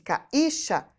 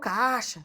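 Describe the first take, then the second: First: The i is a full vowel in its own syllable. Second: The i is a faint glide after the a. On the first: The speaker calls it wrong. "se a pronúncia fosse caixa, seria ca e chá" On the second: The speaker calls it right. "Eu falo caixa. ... o meu I, ó, quase não escuto. É semivogal"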